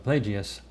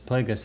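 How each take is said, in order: First: The name is said with a Plagius-like ending. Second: The name is said with a Plagueis-like ending. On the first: The speaker calls it wrong. "I was saying it Darth uh, Plagius" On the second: The speaker calls it right. "but it's, it's Darth Plagueis"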